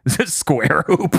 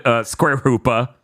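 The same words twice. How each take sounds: First: Drawn out slowly, savoring the name; slow awed naming. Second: Said in the usual way. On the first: Retold or imitated. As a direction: say it slowly like a grand title. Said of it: "And they were just like". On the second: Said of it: "they were just like, Square Hoopa".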